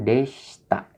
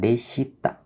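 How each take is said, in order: First: The i after sh is dropped. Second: The i after sh is clearly heard. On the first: The speaker calls it right. "diucapkan deshita ya" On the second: The speaker calls it wrong. "bukan deshita"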